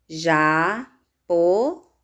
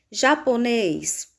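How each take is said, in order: First: "japonês" very slow, split as ja... po... nês; syllable by syllable. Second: Said in the usual way. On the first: Shown as a demonstration. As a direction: break "japonês" into three spaced syllables. ("japonês" bem devagar, sílaba por sílaba) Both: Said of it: "Separando as sílabas".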